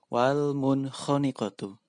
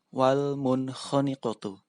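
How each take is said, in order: Both takes have the same delivery.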